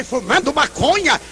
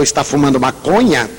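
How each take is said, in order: First: A higher, stunned repeat of maconha; the mother hearing her son smokes; incredulous echo. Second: Said in the usual way. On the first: Retold or imitated. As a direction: echo it back as if it cannot be true. Mother echoes the news in disbelief.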